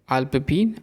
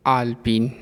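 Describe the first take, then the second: First: अल्पपीन with a short first a; the mistaken अल्पपीन; wrong form. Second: आलपीन with a long first आ; the proper आलपीन; correct form. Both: Shown as a demonstration. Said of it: "अशुद्ध और शुद्ध रूप".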